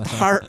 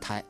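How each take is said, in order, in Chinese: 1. 这个词结尾带儿化的卷舌音。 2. 这个词结尾很平，没有儿化。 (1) "北方的朋友爱加儿化者" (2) "南方的朋友就说是胎"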